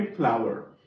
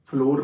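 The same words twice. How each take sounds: First: "फ्लावर" with an ow glide, like flower; correct flour pronunciation. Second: "फ्लोर" said like floor, with a long o; mispronounced flour. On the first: Teacher correcting students' pronunciation, "फ्लावर" said clearly with ow. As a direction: say "फ्लावर" to sound like flower, no long o. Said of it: "हम इसे बोलेंगे फ्लावर". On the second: Teacher showing students the common mistake, mispronounced "फ्लोर" with long o. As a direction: say flour wrongly as "फ्लोर", rhyming with door. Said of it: "गलत pronounce करते हैं, फ्लोर बोल देते हैं". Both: Shown as a demonstration.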